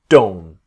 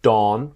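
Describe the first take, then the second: First: The word ends with a clear T sound. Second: The word ends without a T sound. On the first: The speaker calls it right. "very often the T is sounded" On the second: The speaker calls it wrong. "not dawn"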